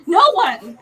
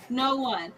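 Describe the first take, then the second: First: Loud, raised "No one"; indignant, forceful "No one"; emphatic answer. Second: Said in the usual way. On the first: Real, not acted. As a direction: punch out "No one" in exasperation. Answers own rant, then repeats lower.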